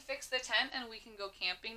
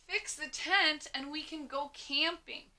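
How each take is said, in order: First: It is said in a calm, plain way. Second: It is said with excited, emphatic energy. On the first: It is a simple statement. "If you're just saying" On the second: The speaker really wants to go camping. "say this with some emphasis, some oomph"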